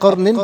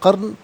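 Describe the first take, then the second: First: The word ends with an added '-in' sound. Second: The word ends bare, without the '-in' sound. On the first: The reading continues without stopping here. "अब कर्निन पढ़ेंगे" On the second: The reader stops at this word. "वफ़ की सूरत में कर्न पढ़ा जाएगा"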